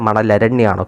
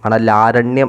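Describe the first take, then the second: First: The 'la' has a short vowel. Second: The 'la' has a long vowel. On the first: The speaker calls it right. "പക്ഷെ മണലരണ്യമാണ്" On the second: The speaker calls it wrong. "എന്നാണ് നമ്മൾ പറയുന്നത്"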